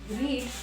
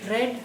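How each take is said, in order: First: The vowel is long, like 'reed'. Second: The vowel is short, like 'red'. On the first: This is the base form of the verb. "read, R E A D, the first one" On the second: These are the past forms of the verb. "the other two forms ... we pronounce or we read it like this: red"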